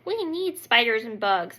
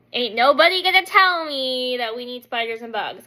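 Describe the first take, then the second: First: Said in the usual way. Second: Louder, emphatic refusal; defiant. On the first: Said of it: "My husband, on the other hand, is like". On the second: Retold or imitated. Wife rejecting husband's case for bugs, defiant. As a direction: push back with sass.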